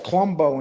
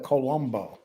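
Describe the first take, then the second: First: "Columbo" squeezed to two syllables, "CLUM-bo"; swallowed first vowel. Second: Said in the usual way. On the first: Retold or imitated. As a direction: drop the first vowel of "Columbo", imitating a lazy New York pronunciation. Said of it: "Lee says Columbo instead of Colombo". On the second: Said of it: "instead of Colombo".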